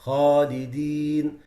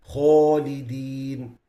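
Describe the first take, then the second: First: Slow Khalidin with a clear open alif; correct Khalidin. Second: Slow Khalidin with the alif rounded toward o; wrong Khalidin, rounded lips. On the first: Teacher showing students the right Khalidin. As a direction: keep the lips apart on the alif of Khalidin. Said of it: "It has to be". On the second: Teacher showing students a wrong rounded Khalidin. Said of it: "These are wrong pronunciations". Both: Shown as a demonstration.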